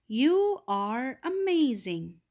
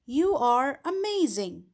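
First: Stretched out, warmly emphatic exclamation; slow exclaimed example. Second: A bright, raised exclamation on YOU; exclaimed example. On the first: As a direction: draw it out with wonder. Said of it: "Here is an example". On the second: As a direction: say it like real praise. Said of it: "This is an example". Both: Shown as a demonstration.

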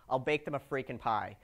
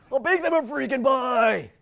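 First: Said in the usual way. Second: Loud, slow, hammed-up Jason Street accent; mock Jason Street accent. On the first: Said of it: "in the Jason Street accent". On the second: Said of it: "you can hear that in the Jason Street accent".

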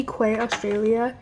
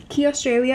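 First: Quay said as "kway"; mistaken pronunciation of Quay. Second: Quay said as "key"; corrected brand pronunciation. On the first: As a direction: say Quay to rhyme with "way". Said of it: "I think it's called Key. Sorry". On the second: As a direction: say Key like the thing for a lock. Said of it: "I think it's called Key". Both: Real, not acted.

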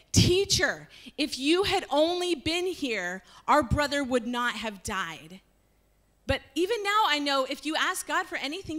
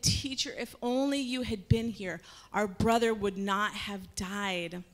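First: Raised, higher voice, grieved and reproachful; pleading reproach. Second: Tearful plea. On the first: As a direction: plead with a friend who came too late. Martha reproaching Jesus. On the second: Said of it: "she started crying". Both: Acted.

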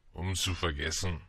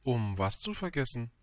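First: Low, glum drinker voice; gloomy drunkard. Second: Lightly voiced questioning child; inquiring little prince. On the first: Drinker tells the prince why he drinks, low gloomy voice. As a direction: answer low and heavily. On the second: Little prince questions the drinker, light inquiring voice. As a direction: ask simply, in a lighter voice. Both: A narrator's reading.

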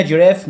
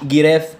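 First: First "جيراف" begun with a j sound; soft G. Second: "جيراف" wrongly begun with g as in "go"; mistaken hard G. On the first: Teacher explaining to learners, "جيراف" with a soft j. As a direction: say "جيراف" with g as in the letter J. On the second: Teacher warning learners, "جيراف" with a hard g. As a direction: harden the first sound of "جيراف" to g. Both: Shown as a demonstration. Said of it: "ليه قلنا جيراف مش جيراف؟".

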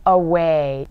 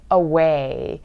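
First: "away" with a light schwa, stressed second syllable; correct away. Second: Away with a wrong Korean-style first vowel; mispronounced away. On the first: Teacher modelling it for learners, correct away. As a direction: say "away" as uh-WAY, louder. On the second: Teacher showing learners the mistake, mispronounced away. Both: Shown as a demonstration. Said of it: "away가 아니죠".

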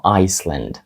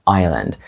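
First: Iceland said as "ICE-lund"; s pronounced. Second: Island said as "EYE-lund"; silent s. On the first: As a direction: sound a clear s in Iceland. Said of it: "Ми не кажемо". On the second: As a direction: drop the s in Island. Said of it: "Тут є глухою літера S". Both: Shown as a demonstration.

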